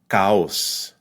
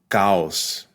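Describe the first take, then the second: The two takes are said the same way.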